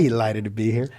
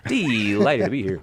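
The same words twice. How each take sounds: First: A hint of a genial radio host greeting; mild, lilting host welcome; Cy Kellett impression. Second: Slower echo of the host greeting, lightly put on; imitating Cy Kellett. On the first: Co-host keeps up the Cy Kellett impression, lightly voiced. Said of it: "I hear the inflections". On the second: Host echoes the co-host's Cy Kellett line, mildly imitating. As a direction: copy the radio host's lilt, drawn out.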